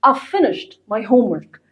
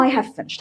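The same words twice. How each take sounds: First: "I've" reduced to "av", linked to "finished"; native-style "av finished" for "I've finished"; contracted pronunciation. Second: Said in the usual way. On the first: Shown as a demonstration. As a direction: run "I've" into one syllable, "av". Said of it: "أقولها كأنك بتقول A و V". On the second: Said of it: "هقول لكم بقى تركاية في النطق".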